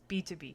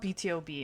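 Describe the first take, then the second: First: The middle is said as the single word two. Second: The middle is spelled out as letters T, O. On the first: The speaker calls it right. "it's B two B" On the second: The speaker calls it wrong. "it's not B T O B"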